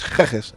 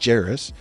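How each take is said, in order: First: The name begins with a hard G sound. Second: The name begins with a soft J sound. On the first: The speaker calls it right. "a hard G" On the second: The speaker calls it wrong. "They'd say it was a, a, a J"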